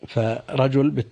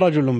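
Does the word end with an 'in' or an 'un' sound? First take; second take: in; un. First: The word ends with an 'in' sound. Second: The word ends with an 'un' sound. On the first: The word stands in apposition to a preceding word. "بالخفض على البدلية" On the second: The word is the subject of an omitted phrase. "رجل بالرفع"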